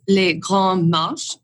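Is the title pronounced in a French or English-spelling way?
French. It is pronounced in a French way.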